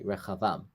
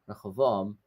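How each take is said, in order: First: The name has a v sound, no b. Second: The name has a b sound in the middle. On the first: The speaker calls it right. "in Hebrew it's like Chavam" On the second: The speaker calls it wrong. "the English pronunciation"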